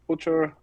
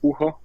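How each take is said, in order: First: The name is said another common non-Austrian way. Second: The name is said the Austrian way. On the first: This is how most people say the name. The speaker calls it wrong. "or Butcher or something like that" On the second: This is how the name is said at home. The speaker calls it right. "in Austria you say Bucher"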